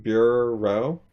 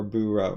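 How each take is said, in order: First: "bureau" split slowly as BYUR-roh; slow, questioning BYUR, then oh; R with first syllable. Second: "bureau" split as BOO-roh; boo, then row; R with second syllable. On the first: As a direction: hold the R on the first part of "bureau". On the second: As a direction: let the R open the second part of "bureau". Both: Shown as a demonstration. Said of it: "One of these".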